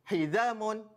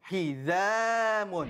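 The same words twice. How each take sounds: First: The middle vowel is cut short. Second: The middle vowel is held long. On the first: The speaker calls it wrong. "membaca secara laju ... itu cara perkataan yang ... salah" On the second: The speaker calls it right. "kita perlu baca panjangnya dua, dua harakat"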